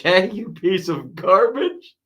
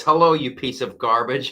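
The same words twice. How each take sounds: First: Laughing. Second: Said in the usual way. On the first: Retold or imitated. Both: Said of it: "Al says".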